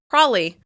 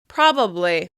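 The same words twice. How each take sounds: First: The B sound is gone entirely. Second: All three syllables are pronounced clearly. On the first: "people drop the B sound entirely and just say the L" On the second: "I tend to pronounce it as three syllables"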